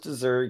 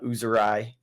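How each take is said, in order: First: The name is said as 'Azuri'. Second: The name is said as 'Uzurai'. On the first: This is the common way people say it. The speaker calls it wrong. "Everyone's calling it Azuri" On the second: This is thought to be the actual pronunciation. The speaker calls it right. "I think is actually how you say it"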